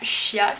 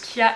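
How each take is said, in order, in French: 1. Le mot commence par un son sh. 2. Le mot commence par un son k. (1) "et non pas chia" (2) "apparemment on prononce kia"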